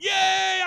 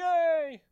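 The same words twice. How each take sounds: First: It is said with sincere, joyful excitement. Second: It is said sarcastically, without real joy.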